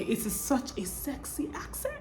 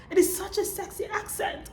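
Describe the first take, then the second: First: Softly lowered volume, slightly lifted pitch; soft admiration. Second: High-pitched, playful swoon; playful high repeat. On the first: Real, not acted. Vlogger admiring the British accent to viewers, soft admiration. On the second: Pretend. Vlogger playfully gushing over the British accent, high and light. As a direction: lift it high and keep it light.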